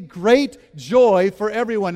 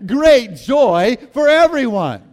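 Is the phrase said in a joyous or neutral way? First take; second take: neutral; joyous. First: It is said in a plain, neutral way. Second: It is said in a joyous, happy way. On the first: "Would you say that with me?" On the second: "Now say it in a joyous way"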